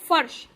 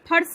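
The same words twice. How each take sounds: First: The word begins with an f sound. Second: The word begins with an aspirated p sound. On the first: The speaker calls it right. "इससे हम फा को क्या पढ़ेंगे" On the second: The speaker calls it wrong. "पढ़कर फर्श नहीं बोलेंगे"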